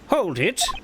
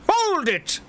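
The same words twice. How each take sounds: First: It is said with restrained enthusiasm. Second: It is shouted with great enthusiasm.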